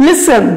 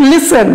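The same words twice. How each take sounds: The two takes are said the same way.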